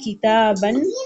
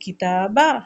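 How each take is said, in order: First: The word ends with an n sound. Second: The word ends with a long a vowel. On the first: The reader continues without stopping. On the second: The reader stops on this word.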